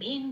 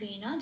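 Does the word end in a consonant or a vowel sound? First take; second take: consonant; vowel. First: The word ends on a bare consonant. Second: The word ends with a full vowel sound. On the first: The speaker calls it wrong. "ভেন বলতে পারবো না" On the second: The speaker calls it right. "নকে ন বলে পূর্ণ ন রূপে উচ্চারণ করতে হবে"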